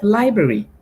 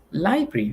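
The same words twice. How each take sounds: First: Library in full, lai-bra-ri, every r sounded; correct library. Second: Library clipped to laibi, the middle r dropped; the lazy library, syllables swallowed; wrong library. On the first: Teacher to students, modelling the correct library in full. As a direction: say library carefully, all three syllables. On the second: Teacher to students, mocking a common slip: library said laibi. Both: Shown as a demonstration. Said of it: "Instead of library".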